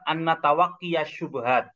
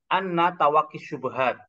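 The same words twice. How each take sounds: First: A vowel is sounded after the final ya. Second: No vowel is sounded after the final ya. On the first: The speaker calls it wrong. "Bukan dibaca" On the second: The speaker calls it right. "tidak nampak harokatnya. Jadi tetap dibaca"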